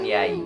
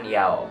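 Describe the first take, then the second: First: The vowel glides toward an i sound. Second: The vowel glides toward an o sound. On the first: "Ada yang mengucapkan yai" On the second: "Ada yang mengucapkan yao"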